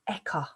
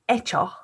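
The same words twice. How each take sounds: First: The middle consonant is a k sound. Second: The middle consonant is a ch sound.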